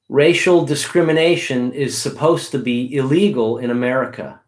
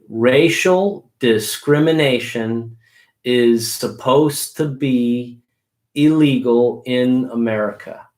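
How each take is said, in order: First: It is said quickly. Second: It is said slowly.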